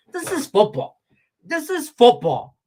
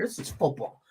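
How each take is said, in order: First: Emphatic shout. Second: Said in the usual way. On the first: Real, not acted. Ranting at Mahomes, loud and emphatic. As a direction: pound it home.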